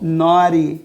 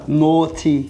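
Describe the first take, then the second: First: It has an American accent with a flapped T. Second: It has a British accent with a clear T.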